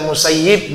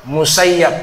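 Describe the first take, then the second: First: The last syllable has the vowel i. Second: The last syllable has the vowel a. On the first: "Bisa dibaca Musayyib" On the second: "bisa dibaca Musayyab. Dua-duanya benar"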